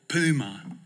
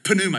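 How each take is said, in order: First: The word starts without a P sound. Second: The word starts with an audible P sound. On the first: The speaker calls it wrong. "in Texas, we call it puma" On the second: The speaker calls it right. "It's got a P in it. You gotta pronounce it"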